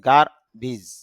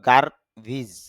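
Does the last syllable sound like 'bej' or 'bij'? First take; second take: bij; bij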